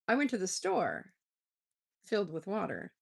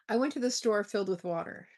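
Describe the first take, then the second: First: There is a clear pause after store. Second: It runs on with no pause after store.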